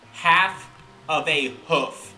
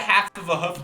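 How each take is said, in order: First: It is said slowly and carefully. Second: It is said quickly and loosely.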